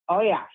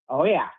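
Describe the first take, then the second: Both takes have the same delivery.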